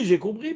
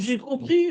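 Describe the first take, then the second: First: It is said firmly, with full assurance. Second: It is said hesitantly, with little assurance. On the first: The listener claims to have understood completely. The speaker calls it wrong. "Et pas oui, oui" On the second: The listener is not fully certain they understood. The speaker calls it right. "dis-le avec beaucoup moins d'assurance dans l'intonation"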